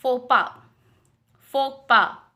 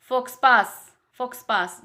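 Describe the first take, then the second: First: फोपा with silent x and s; correct pronunciation. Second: फोक्सपास with the x and s sounded; wrong spelling pronunciation. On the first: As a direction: say फोपा, just "fo-pa". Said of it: "correct है आपका". (फोपा का सही उच्चारण) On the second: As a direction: read फोक्सपास as written, wrongly. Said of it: "ये wrong pronunciation है". (फोक्सपास का गलत उच्चारण) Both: Shown as a demonstration.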